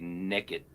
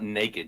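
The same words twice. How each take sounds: First: It is said nekkid, the first vowel like neck. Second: The first vowel sounds like nay, standard.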